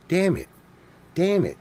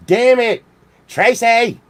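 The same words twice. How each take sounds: First: Muttered curse. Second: Exasperated call. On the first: Comic cursing over Tracy, muttered. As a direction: curse under your breath before the outburst. Repeated curse, building to a yell. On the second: Calling out to Tracy, exasperated. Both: Pretend.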